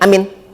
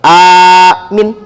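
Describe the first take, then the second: First: Both vowels are kept short. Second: Only the first vowel is drawn out long. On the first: The speaker calls it wrong. "Yang nggak boleh pendek sama pendek" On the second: The speaker calls it right. "hamzahnya panjang, mimnya pendek"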